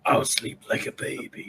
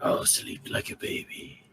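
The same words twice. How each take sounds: First: Whispered, high rocky rasp; talking rock. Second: Softer, whispered rock rasp; breathy rasping rock creature; talking rock. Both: Acted. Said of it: "In the most rock noise voice ever".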